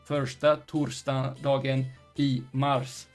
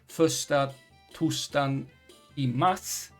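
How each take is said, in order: First: The R sounds are pronounced clearly. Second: The R sounds merge into S-like sounds. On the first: "which would otherwise be" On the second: "with this dialect"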